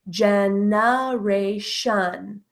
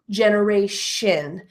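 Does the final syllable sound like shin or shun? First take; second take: shun; shin. First: The last syllable sounds like shun. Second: The last syllable sounds like shin. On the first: "can also be pronounced with the schwa as shun" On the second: "pronounce the T I O N as an S H I N, like the word shin"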